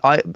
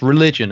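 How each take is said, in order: First: It is said haltingly, with uncertain hesitation. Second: It is said as a quick, confident retort.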